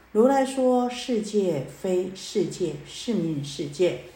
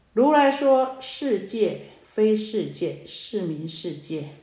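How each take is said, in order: Both takes have the same delivery.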